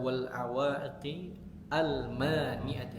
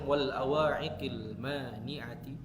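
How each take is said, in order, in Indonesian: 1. 'Al' dibaca terpisah, tidak disambung. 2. 'Al' disambung ke kata sebelumnya. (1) "alif lamnya dibaca. Kalau nggak disambung" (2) "kalau mau disambung"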